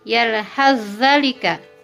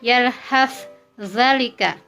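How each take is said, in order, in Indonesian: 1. Konsonan akhir menyatu menjadi konsonan ganda. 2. Konsonan akhir dilafalkan terpisah. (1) "Dibaca menjadi" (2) "Contoh bacaannya"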